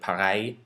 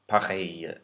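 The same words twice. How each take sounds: First: The word ends in an 'eye' sound. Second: The word ends in an 'ay' sound. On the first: The speaker calls it wrong. "It sounded like pareil, pareil, I, but it's not I" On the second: The speaker calls it right. "It's a, pareil"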